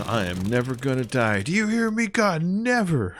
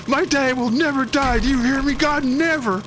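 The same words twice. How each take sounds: First: Rising to a high cry at God; mock defiant cry. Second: Very high, loud, strained mock yell; hammed-up cry at God. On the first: Gamer half-joking to God, high mock defiance. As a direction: playfully defy God in a high voice. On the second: Mister Noblet pointing at God, high loud mock yell. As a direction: bellow it up at God, over the top. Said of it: "He goes".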